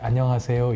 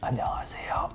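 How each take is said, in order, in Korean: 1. 목소리가 맑고 정상적으로 들려요. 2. 목소리가 쉬고 거칠게 들려요. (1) "이렇게 하는 게 아니라" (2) "이렇게 목소리가 쉬게 되죠"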